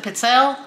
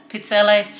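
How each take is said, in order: First: Pizzelle ending on the L; others' pronunciation. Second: Pizzelle ending in a sounded "ay"; own pronunciation. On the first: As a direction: say pizzelle as "pit-SELL". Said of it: "Some people pr". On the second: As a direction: say pizzelle as "peet-SELL-ay". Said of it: "I pronounce it". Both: Shown as a demonstration.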